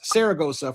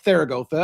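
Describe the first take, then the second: First: It is said with a Latin American Spanish pronunciation. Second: It is said with a Spain Spanish pronunciation. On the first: "might be how you pronounce it uh, if you were um, from certain Latin American countries" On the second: "if you're from Spain, it's Zaragoza"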